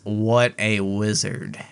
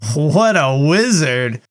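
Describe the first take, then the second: First: It is said in a mocking, sarcastic tone. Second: It is said in a plain, sincere tone. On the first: The remark is an insult, not a compliment. The speaker calls it right. "Like sarcastic" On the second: The remark is a genuine compliment. The speaker calls it wrong. "she doesn't say it like that"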